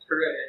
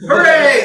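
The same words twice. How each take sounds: First: It is said flatly, without excitement. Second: It is said loudly, with excitement.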